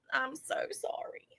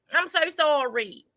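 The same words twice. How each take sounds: First: Hushed, voiceless apology; whispered mock apology. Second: Said in the usual way. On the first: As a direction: let the apology drop to a whisper. Mock tearful confession, apology repeated.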